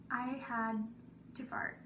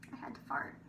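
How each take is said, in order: First: Said in the usual way. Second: Hushed confession, breath only; whisper. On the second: Real, not acted. Confiding to listeners the embarrassing need, whispered. Repeated as a secret.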